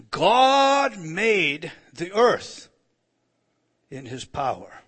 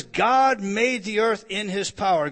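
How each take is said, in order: First: Very slow, loud "God made the earth"; solemn loud proclamation of "God made the earth"; intoned scripture. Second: "God made the earth" loud but at normal pace; firm loud restatement of "God made the earth"; quoted scripture. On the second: Quoting the verse again. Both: Acted.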